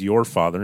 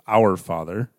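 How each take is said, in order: First: YOUR punched louder in "your father"; stress on YOUR. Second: OUR set out firmly in "our father"; stress on OUR. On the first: Preacher setting the brothers' phrase against the alternative, stress on YOUR. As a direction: lean hard on the word "your". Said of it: "they use the phrase". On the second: Preacher giving the phrase the brothers avoided, stress on OUR. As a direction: lean hard on the word "our". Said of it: "instead of". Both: Shown as a demonstration.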